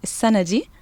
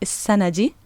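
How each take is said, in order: The two takes are said the same way.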